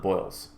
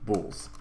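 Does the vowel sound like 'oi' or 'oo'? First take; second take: oi; oo. First: The vowel sounds like 'oi' in 'boil'. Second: The vowel sounds like 'oo' in 'pool'. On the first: The speaker calls it wrong. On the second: The speaker calls it right.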